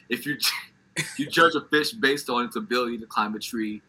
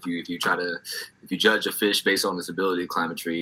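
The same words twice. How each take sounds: First: The words are said clearly and distinctly. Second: The words are mumbled and run together. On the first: The speaker calls it right. "I'm articulating" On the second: The speaker calls it wrong. "You mumble rap that"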